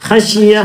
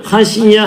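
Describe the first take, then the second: Both takes have the same delivery.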